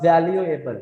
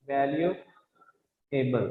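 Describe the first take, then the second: First: Said in the usual way. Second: "valuable" slowly, a long pause before the final "एबल"; softer, lower "value ... एबल", broken in two; split into syllables. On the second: Shown as a demonstration. Teacher breaking up a word for pupils, "valuable" slowly in parts. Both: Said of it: "इसमें कितने syllable हैं".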